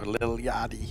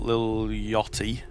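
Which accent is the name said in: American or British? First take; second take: American; British. First: The name is said in an American accent. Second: The name is said in a British accent. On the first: The speaker calls it right. "does sound way better in an American accent" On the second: The speaker calls it wrong. "which sounds awful in a British accent"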